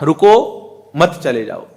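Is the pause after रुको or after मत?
after रुको. The pause comes right after रुको.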